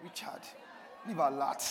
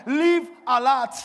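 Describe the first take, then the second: First: Low, softer self-address; said to oneself. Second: Loud, high, drawn-out exhortation; rousing charge. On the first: Preacher showing how to say it to yourself, low and personal. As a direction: charge yourself privately, by name. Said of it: "say it to yourself". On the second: Preacher showing the congregation what to tell neighbours, loud rousing charge. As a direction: proclaim it slowly to the whole room. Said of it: "Tell them". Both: Shown as a demonstration.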